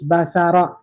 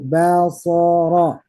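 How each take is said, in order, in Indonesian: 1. Semua huruf dibaca tipis. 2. Bunyi s dan r dibaca tebal. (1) "sehingga dibaca tipis" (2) "ba tipis, so tebal, ro tebal"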